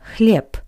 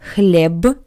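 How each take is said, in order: First: The word ends with a voiceless p sound. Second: The word ends with a voiced b sound. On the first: The speaker calls it right. "it's read like the voiceless consonant p" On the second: The speaker calls it wrong. "Not хлеб"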